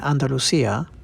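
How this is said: It is said in a Latin American Spanish accent. "that's how someone speaking Latin American Spanish like me would pronounce it"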